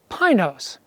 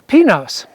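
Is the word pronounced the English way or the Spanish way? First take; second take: English; Spanish. First: It is pronounced the local English way. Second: It is pronounced the Spanish way. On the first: The speaker calls it wrong. "the locals call the mountain we're headed for Pinos" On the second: The speaker calls it right. "The Spanish word for pines is pinos"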